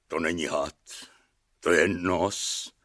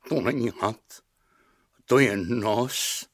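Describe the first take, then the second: First: Low, soft, slowing lament; mild sob. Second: Slow, subdued repetition; dazed echo. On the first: Castellan telling the king, understated sobbing. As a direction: sink low and quiet, as if tearful. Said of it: "zaštkal kastelán". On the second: King echoing his castellan, slow and stunned. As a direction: repeat it slowly, drawing out the end. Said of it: "opakoval po něm Pikola". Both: A narrator's reading.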